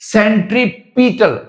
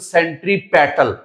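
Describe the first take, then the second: First: The third syllable has an 'i' vowel, like 'pit'. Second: The third syllable has an 'e' vowel, like 'pet'. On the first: The speaker calls it wrong. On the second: The speaker calls it right.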